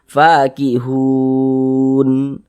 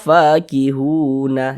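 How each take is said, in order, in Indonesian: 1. Kata ini berakhir dengan bunyi n mati. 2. Kata ini berakhir dengan tambahan vokal a. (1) "berhenti di huruf nun kita baca fakihun" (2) "Jangan dibaca fakihuna"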